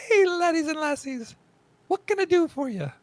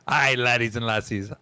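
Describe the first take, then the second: First: High, loud Scottish dwarf innkeeper; hammed-up Scottish lady dwarf. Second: Lightly Scottish dwarf greeting; a hint of a Scottish innkeeper; mild Scottish lilt, hearty; Scottish dwarf lady. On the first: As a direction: belt it out like a Scottish tavern dwarf. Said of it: "It's a great dwarf lady voice". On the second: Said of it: "Thanks, Scottish".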